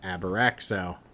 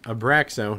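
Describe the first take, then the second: First: The word is said with an added extra syllable. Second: The word is said without any extra syllables. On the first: The speaker calls it wrong. "I want to add extra fucking syllables to that every time" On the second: The speaker calls it right. "it's Abraxo"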